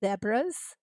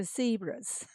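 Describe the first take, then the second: First: Zebras with a short e, ZEH-bras, rising; British zebras. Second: Zebras with a long ee, ZEE-bras, falling; American zebras. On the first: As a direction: ask ZEH-bras as a question. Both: Shown as a demonstration. Streamer comparing zebra pronunciations for chat. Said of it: "We say zebras".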